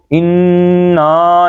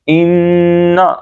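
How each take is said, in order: First: "انا" with held n and stretched final aa; wrong elongation. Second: "انا" with long humming nn, short final a; ghunna only. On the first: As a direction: drag out the end of "انا". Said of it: "نہیں پڑھ دیں گے". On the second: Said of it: "گنا کریں گے بس". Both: Shown as a demonstration.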